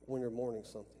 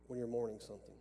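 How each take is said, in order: Both takes have the same delivery.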